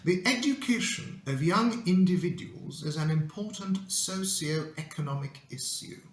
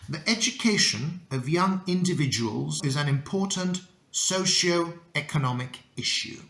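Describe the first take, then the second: First: Keeps separate y sounds after consonants. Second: Uses merged ch, sh and j sounds. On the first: The speaker sounds like an aristocrat. "if you want to sound uh, like the Earl of Sussex" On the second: The speaker sounds like a normal, cool person. "if you want to be cool, you should read it like this"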